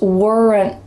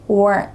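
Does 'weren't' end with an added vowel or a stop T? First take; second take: added vowel; stop T. First: It ends with an added vowel before the T. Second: It ends with a stop T, no extra vowel. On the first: The speaker calls it wrong. "we added a schwa sound, it would sound like" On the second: The speaker calls it right. "just a stop T at the end"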